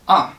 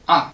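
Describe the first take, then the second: The two takes are said the same way.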